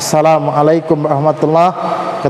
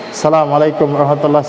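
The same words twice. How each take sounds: First: It is said carefully and fully pronounced. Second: It is said automatically with sloppy pronunciation. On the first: It is said with sincere attention. The speaker calls it right. "betul-betul disertai dari dalam hati kita" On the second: It is said out of habit without attention. The speaker calls it wrong. "Jadi seperti otomatis"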